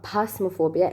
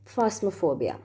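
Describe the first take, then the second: First: The word begins with a P sound. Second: The word begins with an F sound. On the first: The speaker calls it wrong. "It's not phasmophobia" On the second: The speaker calls it right. "P H is pronounced as fa, F"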